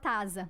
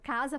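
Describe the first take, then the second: First: The word begins with a t sound. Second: The word begins with a k sound. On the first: A child's sound substitution. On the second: The intended adult form.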